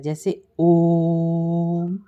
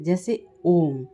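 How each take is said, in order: First: Very slow, ओम stretched far past two beats; drawn-out om. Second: Slow, with the ओम stretched long; drawn-out om. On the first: Teacher demonstrating pluta with ओम, held very long. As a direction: hold the ओ of ओम like a chant. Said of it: "इसके उच्चारण में हमारा और लंबा समय लगता है". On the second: Teacher showing students the pluta vowel, stretched long. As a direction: pull the ओ of ओम out well past two beats. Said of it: "ओ को लंबा खींचा जाता है". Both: Shown as a demonstration.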